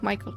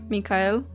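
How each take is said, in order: First: The name is said in the English way. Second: The name is said in a non-English way. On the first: The speaker calls it wrong. "Michael sounds like more on English manner" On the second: The speaker calls it right. "probably Mikael"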